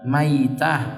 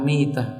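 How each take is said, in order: First: The first syllable has the diphthong 'ai'. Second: The first syllable has a plain 'i' vowel.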